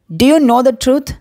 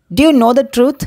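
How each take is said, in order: First: Very slow, every word spaced; slow model phrase. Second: Said in the usual way. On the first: Shown as a demonstration. Teacher to Tamil learners, slow clear model question. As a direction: stretch it out for learners to copy. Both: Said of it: "teacher models English phrase twice".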